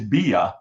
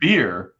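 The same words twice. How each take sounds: First: It is said in a Boston accent. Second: It is said in a plain, non-Boston accent. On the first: "if in Boston it's beer" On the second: "for me this is beer"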